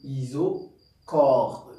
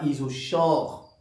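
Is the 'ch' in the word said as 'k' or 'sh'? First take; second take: k; sh. First: The 'ch' is said as a hard 'k'. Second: The 'ch' is said as a soft 'sh'. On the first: The speaker calls it right. "Donc on dit isochore. ... comme le chlore" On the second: The speaker calls it wrong. "On ne dit pas isochore"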